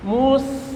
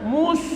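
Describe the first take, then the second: First: MUS ending on a thin, clean s; correct clean s. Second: MUS ending in a broad sh; wrong hushed ending. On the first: Teacher showing it the right way, clean s. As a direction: hold a clear s at the end of MUS. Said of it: "Nah, gitu". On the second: Teacher warning what not to say, hushed sh. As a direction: let MUS slide into a sh sound. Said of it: "Jangan mus". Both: Shown as a demonstration.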